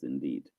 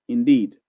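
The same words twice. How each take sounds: First: Very soft and far lower, almost breathed out; hushed echoing indeed; faint echo. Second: Said in the usual way. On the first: Shown as a demonstration. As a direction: let it fade like a distant echo. Repeats the word as an echo.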